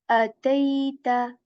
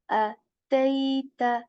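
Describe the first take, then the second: The two takes are said the same way.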